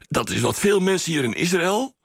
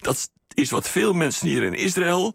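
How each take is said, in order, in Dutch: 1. De korte pauzes tussen de woorden zijn licht. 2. De korte pauzes tussen de woorden zijn overdreven.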